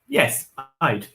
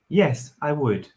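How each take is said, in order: First: The word 'would' is contracted to 'I'd'. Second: The word 'would' is said in full. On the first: The speaker calls it wrong. "We don't say I'd. ... No, not good" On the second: The speaker calls it right. "We need to say the whole word"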